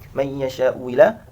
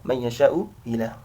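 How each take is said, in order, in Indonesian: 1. Hamzah kedua menjadi bunyi w. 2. Hamzah kedua dilunakkan dan diringankan. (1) "Yang pertama diganti wawu" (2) "yang kedua dibaca tashil hamzah kedua"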